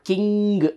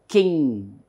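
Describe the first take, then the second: First: A hard g sound is heard at the end. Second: It ends in ng with no hard g. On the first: The speaker calls it wrong. "It is not king. So there is no need to pronounce G" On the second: The speaker calls it right. "It is king. This ng is the last pronunciation"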